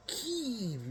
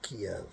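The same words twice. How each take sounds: First: Kyiv as one long syllable, "Keev"; variant pronunciation. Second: Kiev in two syllables, "Kee-ev"; preferred older pronunciation. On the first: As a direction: say "Kyiv" as a drawn-out, high-pitched "Keev". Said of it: "how you pronounce it". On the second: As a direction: say "Kiev" with a clear second vowel, "kee-EV". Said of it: "I call it Kiev". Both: Shown as a demonstration.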